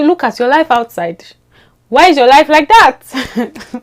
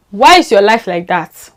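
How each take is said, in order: First: Exasperated outcry. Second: Said in the usual way. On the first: Real, not acted. Vlogger scolding the friend who changed her accent, exasperated outcry. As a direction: demand it in mock exasperation.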